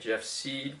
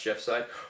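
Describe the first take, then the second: First: The last name has an 'ee' vowel. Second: The last name has an 'eye' vowel. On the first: The speaker calls it wrong. "Does your last name commonly get said wrong" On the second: The speaker calls it right. "when it's pronounced Jeff Side"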